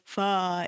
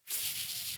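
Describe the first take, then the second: First: The consonant is followed by an added vowel. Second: The consonant is said alone with no vowel. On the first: The speaker calls it wrong. "You will not say fa" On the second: The speaker calls it right. "It's f"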